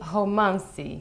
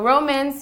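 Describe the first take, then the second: First: It is pronounced the Portuguese way. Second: It is pronounced the English way.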